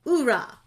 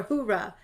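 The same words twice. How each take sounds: First: "Oorah" starting on an open oo, louder; cheer without H. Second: "hoorah" starting on an audible H, usual level; cheer with H. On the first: Host reading panelists' chat cheer, "Oorah" with no opening H. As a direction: call out "Oorah" with no H sound at the start. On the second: Host offering another pronunciation, "hoorah" with opening H. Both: Shown as a demonstration. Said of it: "however that's pronounced".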